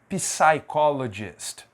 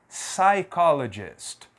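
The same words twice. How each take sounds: First: The initial P sound is pronounced. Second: The initial P sound is silent. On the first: The speaker calls it wrong. "aqui não é psychologist, não" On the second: The speaker calls it right. "eu não vou pronunciar a letra P"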